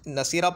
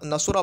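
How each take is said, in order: First: The middle consonant carries an i vowel. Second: The middle consonant carries a u vowel. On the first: "मकसूर लेकर आते हैं" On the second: "मज़मूम लेकर आते हैं"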